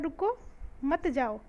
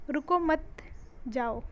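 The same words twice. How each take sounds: First: There is a pause right after 'ruko'. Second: There is a pause right after 'mat'. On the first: The listener is told not to go. "मैंने यहाँ लगा दिया coma" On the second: The listener is told to go. "अब मैं यहाँ न लगा के चिन्ह ये लिखती हूँ"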